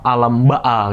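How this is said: The middle consonant is a glottal stop. "kalau Mesir huruf Qaf itu dibaca A"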